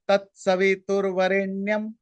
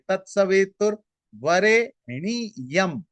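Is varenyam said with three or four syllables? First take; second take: three; four. First: Varenyam has three syllables, with a joined 'nya'. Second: Varenyam has four syllables, with 'ni-ya' split apart. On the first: The line has twenty-three syllables. "इसका जो normal उच्चारण" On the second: The line is filled out to twenty-four syllables. "N Y ए, इसके जगह N I Y A"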